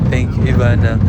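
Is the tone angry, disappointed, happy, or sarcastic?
disappointed. It is said in a disappointed, let-down tone. "Number two, disappointed"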